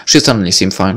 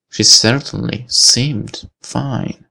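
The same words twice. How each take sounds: First: Said in the usual way. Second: "certainly seemed fine" slow and spaced out, rising at the end; slow, suspicious emphasis. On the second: Acted. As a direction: weigh CERTAINLY and SEEMED separately, doubtfully. Re-reads it after a doubt.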